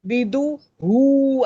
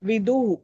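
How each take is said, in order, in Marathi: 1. ह च्या आधीचा स्वर दीर्घ उच्चारला जातो. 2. ह च्या आधीचा स्वर ह्रस्व ठेवला जातो. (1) "असं नाही केलं तर अशुद्ध झालं" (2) "दू रस्व आहे तर हू पण रस्वच म्हणायचं आहे"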